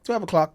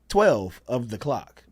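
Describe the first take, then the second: First: "Of the" is reduced to a single "o'" sound. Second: The words "of the" are said in full. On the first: This is the later, shortened everyday form. "English and how kind of slang kind of got thrown in" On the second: This is the older, original way of saying the time. "people started looking at that and would say it's twelve of the clock"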